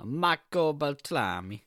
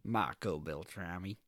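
First: Hammed-up Italian name, slow and lilting; Italian accent, drawn out with relish; mock Italian accent. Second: Mild American accent, low and unhurried; understated American take on an Italian name. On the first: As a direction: roll it out in a playful Italian accent. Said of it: "I think it's Italian again". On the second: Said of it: "Or in America". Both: Shown as a demonstration.

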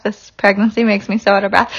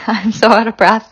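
First: Winded, breathing hard between words. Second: Short of breath, pregnant and winded. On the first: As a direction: speak short of breath. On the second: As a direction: talk between quick breaths. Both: Real, not acted.

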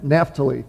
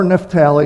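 First: Naphtali as NAF-tuh-lee; Naphtali, lower and softer, first syllable stressed; first pronunciation of Naphtali. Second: Naphtali as nef-TAL-ee; alternative pronunciation of Naphtali. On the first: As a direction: say Naphtali with the stress up front and a reduced middle vowel. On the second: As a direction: say Naphtali with a full, stressed middle syllable. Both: Shown as a demonstration. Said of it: "however you might want to pronounce it".

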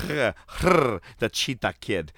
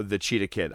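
First: Drawn-out growly big-cat announcement; mock cat growl. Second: Said in the usual way. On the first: Podcaster introducing Eddie Guerrero's opponent, mock cheetah growl. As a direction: growl the name slowly like a cheetah. Growls out the wrestler's gimmick name.

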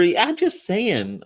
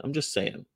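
First: Slow high sing-song; high drawn-out. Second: Said in the usual way. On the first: Acted. Sing-song emphatic aside.

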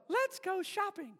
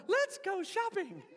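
First: High sweet doll voice; Barbie voice box. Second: High laughing doll voice; Barbie voice box. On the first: Pastor mimicking Barbie's voice box, high and sweet. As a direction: chirp it like a talking doll. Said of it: "and she would go". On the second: Swapped voice box in G I Joe, high doll voice. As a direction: chirp it like a doll through a laugh. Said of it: "and G I Joe goes". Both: Retold or imitated.

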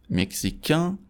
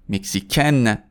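First: مکزیکن rising to a nasal vowel, no N; higher French masculine مکزیکن, nasalized ending. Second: مکزیکن falling onto a sounded N; French feminine مکزیکن with full final n; non-nasal ending. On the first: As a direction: end مکزیکن through the nose, silent n. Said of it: "به خاطر اینکه توی بینیه". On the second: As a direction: end مکزیکن on a clear "-ken". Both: Shown as a demonstration.

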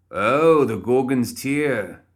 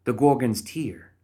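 First: Loud high Oh, then Gorgon's Tear slow and savoured; light up and savour Gorgon's Tear; delighted. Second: Gorgon's Tear read slowly, higher, falling; reading the name. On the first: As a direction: Philip beaming at the name. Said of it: "Philip's face brightened". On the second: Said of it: "she peered at her notebook". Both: A narrator's reading.

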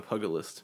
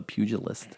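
First: Pugilist said as puh-guh-list, hard g. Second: Pugilist said as pyoo-jih-list, soft g. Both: Shown as a demonstration. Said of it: "Or as some people pronounce it".

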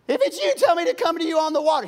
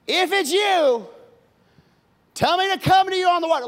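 First: High, loud and fast demand; brash Peter again. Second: Higher, louder, a challenging demand; brash Peter. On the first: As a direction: insist on proof before stepping out. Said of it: "He wants I D first". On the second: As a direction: dare Jesus to prove it. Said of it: "Peter says". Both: Acted.

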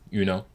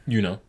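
Both takes have the same delivery.

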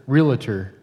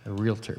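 First: "Realtor" in three syllables, REE-luh-tor, loud first syllable; Southern Indiana "realtor". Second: "realtor" in two quiet syllables, REEL-tor; standard realtor. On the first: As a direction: punch the REE of "Realtor" and add a middle syllable. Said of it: "a lot of emphasis on the first syllable in Southern Indiana". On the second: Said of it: "Is it realtor?". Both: Shown as a demonstration.

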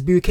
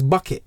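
First: "Buket" said like "bouquet"; affected mispronunciation. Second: "Bucket" like the pail; ordinary pronunciation. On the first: Retold or imitated. Quoting the TV woman's fancy surname, "Buket" as boo-KAY. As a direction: stress the second syllable of "Buket", ending in "kay". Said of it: "where the woman says her name is". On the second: Shown as a demonstration. Giving the woman's real surname, "Bucket" as BUCK-it. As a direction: stress the first syllable of "Bucket", short "it" ending. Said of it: "but it's really Missus Bucket".

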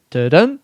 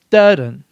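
First: "dun" as da-DUN, second beat lifted; iamb stress pattern. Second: "dun" as DUH-dun, strong then falling; trochee stress pattern. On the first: Podcaster comparing feet, "dun" as rising da-DUN. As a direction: say "dun" as weak-strong da-DUN, slowly. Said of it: "an unstressed and then a stressed syllable". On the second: Podcaster comparing feet, "dun" as falling DUH-dun. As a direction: hit the first beat of "dun" loudly, DUH-dun. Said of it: "the stress is on the first". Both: Shown as a demonstration.

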